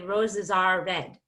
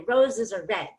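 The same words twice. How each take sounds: First: Every word gets equal stress, including 'are'. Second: 'Are' is squeezed quickly between the stressed words.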